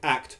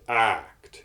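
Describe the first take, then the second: First: The vowel is short and clipped. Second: The vowel is long and drawn out. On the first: "as I would normally say act" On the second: "Darth Vader says act. You see, he draws it out"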